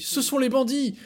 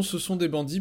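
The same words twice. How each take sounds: First: Higher and louder alarmed cry; excited exclamation. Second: Said in the usual way. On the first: Acted. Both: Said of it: "puisque Pinocchio nous dit".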